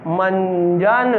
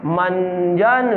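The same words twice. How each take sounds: First: मंजन drawn out slowly; slow classroom reading of मंजन; slow syllable demo. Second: मंजन again drawn out slowly; slow second reading of मंजन; slow classroom reading of मंजन; slow repeat. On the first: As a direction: model मंजन slowly for children. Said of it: "teacher models word slowly". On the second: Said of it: "teacher repeats word slowly". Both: Shown as a demonstration.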